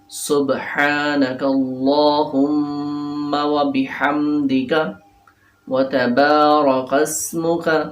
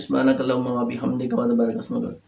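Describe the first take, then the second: First: The phrase is recited slowly. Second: The phrase is recited quickly. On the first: The speaker calls it right. "Aahista आहिस्ता इसको पढ़ना है" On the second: The speaker calls it wrong. "अक्सर लोग पढ़ लेते ... ये तरीका ठीक नहीं है"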